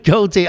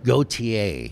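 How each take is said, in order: First: The name is said with two syllables. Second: The name is said with three syllables. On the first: The speaker calls it wrong. "It's not goatee" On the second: The speaker calls it right. "Gautier is how you pronounce that"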